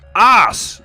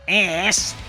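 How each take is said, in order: First: The word is said in the arse form. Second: The word is said in the ass form. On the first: The speaker calls it right. "the word is arse" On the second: The speaker calls it wrong. "not ass"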